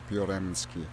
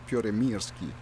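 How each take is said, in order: First: The name has no extra syllable before 'sky'. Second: The name has an extra 'ir' syllable before 'sky'. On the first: The speaker calls it wrong. "I think I pronounced the name of the plane wrong" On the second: The speaker calls it right. "It's got an I in there"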